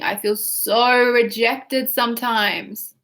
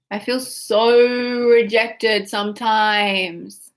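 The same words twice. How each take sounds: First: Slow, drawn-out whine; whiny repeat of the demo. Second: Slow, stretched-out whine; whiny. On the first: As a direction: stretch every word in self-pity. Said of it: "we wanna get whiny". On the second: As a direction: drag out the words like a hurt child. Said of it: "Say it like that". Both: Shown as a demonstration.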